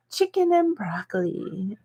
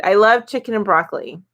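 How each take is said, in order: First: Whispered, savoring the words. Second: Said in the usual way. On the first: Real, not acted. Repeating her favorite order to viewers, whispered. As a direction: breathe it like a secret craving.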